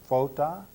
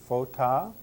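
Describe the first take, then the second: First: The stress falls on the last syllable. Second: The stress falls on the last syllable.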